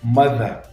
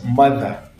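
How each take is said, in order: No difference in how they are said.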